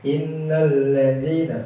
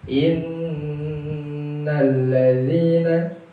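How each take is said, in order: First: The doubled n is passed over quickly. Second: The doubled n is held with a nasal hum. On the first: The speaker calls it wrong. "hanya tasydid akhirnya terbacanya hanya lewat saja" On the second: The speaker calls it right. "Diawali bacaan gunnah atau dengung"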